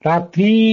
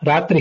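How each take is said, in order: First: The word ends in a long i vowel. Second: The word ends in a short i vowel. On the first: "ದೀರ್ಘ ಈಕಾರಾಂತವಾದ ಶಬ್ದ" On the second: "ಇಕಾರಾಂತವಾದ ಶಬ್ದ"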